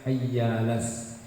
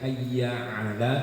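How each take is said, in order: First: The words run together with no throat consonant. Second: A throat consonant is heard before 'ala'. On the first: The speaker calls it wrong. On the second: The speaker calls it right.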